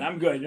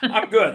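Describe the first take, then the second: First: Said in the usual way. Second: Laughing. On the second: Real, not acted. Laughing reply about immunity.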